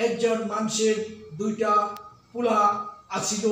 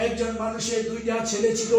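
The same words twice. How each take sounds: First: Dhaka dialect. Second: Said in the usual way. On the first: Shown as a demonstration. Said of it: "Dhaka অঞ্চলের ভাষা হলো". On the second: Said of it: "আমরা বলে থাকি".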